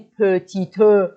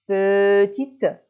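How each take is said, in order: First: A vowel is sounded after the final t. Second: It ends on the t with no final vowel. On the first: The speaker calls it wrong. "نمیگی پتیتو" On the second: The speaker calls it right. "اش خونده میشه، پرونونسه است ولی اوی آخر پرونونسه نیست"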